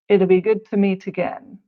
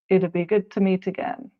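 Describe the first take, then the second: First: It would is shortened to one syllable. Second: The same.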